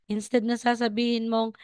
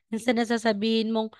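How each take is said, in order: Both takes have the same delivery.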